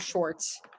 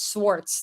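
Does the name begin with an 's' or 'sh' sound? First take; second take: sh; s. First: The name begins with an 'sh' sound. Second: The name begins with a plain 's' sound. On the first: The speaker calls it wrong. "not Schwartz" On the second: The speaker calls it right. "It's Swartz"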